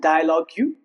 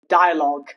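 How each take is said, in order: First: It ends with an added 'you' sound. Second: It ends without a 'you' sound. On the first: The speaker calls it wrong. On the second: The speaker calls it right. "rules where you remain silent, ending in G U E"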